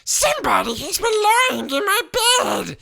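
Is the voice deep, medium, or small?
medium. It is said in a medium voice.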